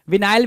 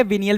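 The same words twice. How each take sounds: First: विनायल said "vin-EYE-ul"; accepted variant pronunciation. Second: विनियल said "VIN-ee-ul"; accepted variant pronunciation. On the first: Teacher reassuring students either way works, विनायल with an "eye" sound. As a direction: give विनायल an "eye" middle syllable. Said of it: "विनायल भी ठीक है". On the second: Teacher reassuring students either way works, विनियल with an "ee" sound. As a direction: give विनियल a short i, then "ee". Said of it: "विनियल भी ठीक है". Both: Shown as a demonstration.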